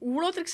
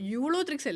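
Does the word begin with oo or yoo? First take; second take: oo; yoo. First: The word begins with a plain oo sound. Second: The word begins with a yoo sound. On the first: The speaker calls it wrong. "ഊളോത്രിക്സ് അല്ലല്ലോ" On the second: The speaker calls it right. "യൂളോത്രിക്സ് അല്ലേ"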